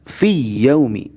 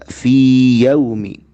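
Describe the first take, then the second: First: The first ya merges straight into the second. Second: The long vowel is held clearly for two counts. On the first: The speaker calls it wrong. "Kita tidak membaca fi yaumi. Fi tidak meleburkan langsung ke ya kedua" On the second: The speaker calls it right. "ya pertama dibaca fi yaumi. Fi yaumi dengan mad dua harokat"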